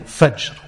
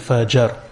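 First: The final consonants are said together without a vowel. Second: A vowel is inserted between the final consonants. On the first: This is the original Arabic form. The speaker calls it right. "instead of saying Fajr" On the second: The speaker calls it wrong. "we say Fajr"

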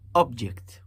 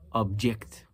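First: The stress is on the first syllable. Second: The stress is on the second syllable. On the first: It names a thing or item. "Listen to the first one" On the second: It is an action of opposing an idea. "And the second one"

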